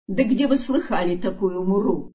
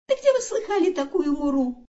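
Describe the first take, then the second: First: Scornful snort of a kangaroo mum; scoffing mother kangaroo. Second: High-pitched little joey parroting his mother; kangaroo son. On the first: Mother kangaroo scoffs at the elephant, scornful. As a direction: scoff in disbelief, in a grown-up voice. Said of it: "хмыкнула вдруг из листвы кенгуру". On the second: Kangaroo son echoes mother from the pouch, high voice. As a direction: squeak it out high, copying mum. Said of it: "буркнул из сумки сынок кенгуру". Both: A narrator's reading.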